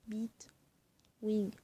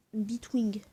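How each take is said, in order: First: Bitwing whispered, no voice. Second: Said in the usual way. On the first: Shown as a demonstration. Repeating the word for viewers in a whisper. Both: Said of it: "repeats word to the device".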